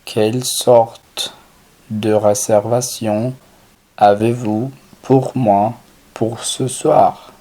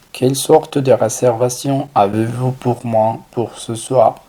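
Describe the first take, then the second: First: Slow French phrase, paused between chunks; measured teaching pace with clear breaks; slow, segmented model. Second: Said in the usual way. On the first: Shown as a demonstration. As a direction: say it chunk by chunk for a learner.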